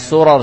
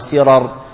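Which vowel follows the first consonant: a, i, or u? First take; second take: a; i. First: The first vowel is an a sound. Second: The first vowel is an i sound. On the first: "وأجاز بعضهم الفتح" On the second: "وكذلك بعضهم الكسر"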